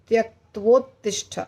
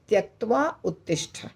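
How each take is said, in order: First: The two words are merged into one word. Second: The two words are said separately, unmerged. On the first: "वो दोनों का भी का भी संधि है" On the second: "तो हमें क्या बोलना है?"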